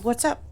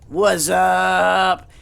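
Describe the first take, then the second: First: The phrase is said quickly and briefly. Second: The phrase is stretched out and said slowly.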